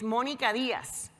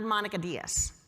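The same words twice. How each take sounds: First: The name is said with Spanish pronunciation. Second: The name is said with English pronunciation. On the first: This is the name's original, native pronunciation. The speaker calls it right. "the way I learned how to pronounce my name is" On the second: This is an anglicized version of the name. The speaker calls it wrong.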